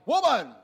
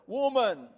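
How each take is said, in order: First: It is said abruptly and harshly. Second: It is said gently and respectfully.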